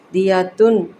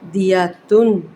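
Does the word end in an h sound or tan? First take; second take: tan; tan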